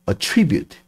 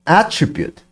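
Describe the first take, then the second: First: The stress is on the second syllable. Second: The stress is on the first syllable. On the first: The word is used as a verb. "동사일 때는 attribute, 이음절에 강세가 오고" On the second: The word is used as a noun. "명사로는 발음이 attribute, 이름절에 강세가 옵니다"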